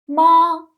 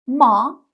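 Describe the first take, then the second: First: The pitch stays high and level. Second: The pitch rises from mid to high. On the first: "یک نواخت میگم ما ما" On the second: "توی تون دو صدای من بالا میره، میگم ما، انگار تعجب کردم"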